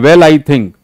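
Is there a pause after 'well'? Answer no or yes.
no. It is said quickly without a pause. The speaker calls it wrong. "ऐसे नहीं"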